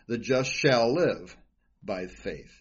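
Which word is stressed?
live. The stress is on "live".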